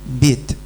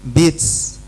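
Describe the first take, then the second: First: The final t ends with a light hiss. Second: The final t ends with a strong s sound. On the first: The speaker calls it right. "Persis kan?" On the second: The speaker calls it wrong. "Nggak nyambung. Itu salah"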